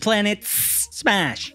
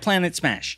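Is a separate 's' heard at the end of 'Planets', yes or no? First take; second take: yes; no. First: The 's' of 'Planets' is heard separately before 'Smash'. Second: The 's' of 'Planets' merges into 'Smash' and is not heard. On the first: The speaker calls it right. "It's Planets Smash" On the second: The speaker calls it wrong. "it's going to sound like Planet Smash. But that's not it"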